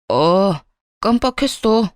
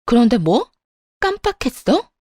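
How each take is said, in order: First: Casual, unbothered shrug of a line; offhand calm. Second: Rising sharply higher in outraged disbelief; incredulous echo. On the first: Husband on the phone, breezily forgetting the birthday, unbothered. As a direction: toss it off as if it's nothing. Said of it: "아주 태연한 목소리로". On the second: Wife repeating her husband's excuse, outraged and incredulous. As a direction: throw his words back at him, stunned. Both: Acted.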